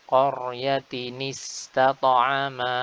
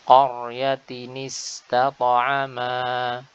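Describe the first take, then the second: No difference in how they are said.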